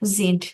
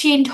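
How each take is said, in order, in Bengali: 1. শব্দটি একটি গুনগুন করা z ধ্বনি দিয়ে শুরু হয়। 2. শব্দটি একটি ফিসফিসে sh ধ্বনি দিয়ে শুরু হয়। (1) "কারণ হচ্ছে এস এর পরে ... ই আছে" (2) "এটা কিন্তু শিন্ড হওয়ার কথা, মানে শিন্ডও হতে পারে"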